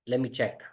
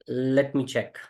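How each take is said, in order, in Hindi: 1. 'let' में t की ध्वनि साइलेंट होती है। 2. 'let' में t की ध्वनि उच्चारित होती है।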